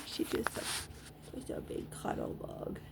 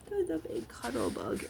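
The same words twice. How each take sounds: First: Soft, hushed murmur of affection; whispered fondness. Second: Higher, fond coo; affectionate coo. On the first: Owner murmuring to her dog, whispered. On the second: Owner cooing fondly at her dog, higher. Repeats fond phrase aloud. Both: Real, not acted.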